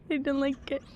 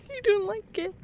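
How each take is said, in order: First: Scared murmur. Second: High, scared whine. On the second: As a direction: whimper it out. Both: Real, not acted. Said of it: "I have a fear".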